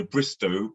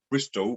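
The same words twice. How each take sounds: First: BRISTOW ending on a plain "oh"; BRISTOW, the original open ending; L-less BRISTOW. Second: BRISTOL with an L closing the "oh"; BRISTOL, local L tacked on the end; added Bristolian L. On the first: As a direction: say "Bristow" with no L at all. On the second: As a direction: finish "Bristol" on a clear L. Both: Shown as a demonstration. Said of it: "Bristolians add an L".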